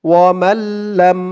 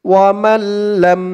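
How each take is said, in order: No difference in how they are said.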